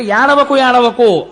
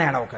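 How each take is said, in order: First: Put-on calling out to a wailing baby, loud; loud hushing. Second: Put-on low, soft hush to a child; calm him gently, down low; soft soothing. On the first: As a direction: raise the voice over a crying child. Brahma hushing crying newborn Rudra. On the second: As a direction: Brahma softly soothing the newborn Rudra. Brahma soothes Rudra softly.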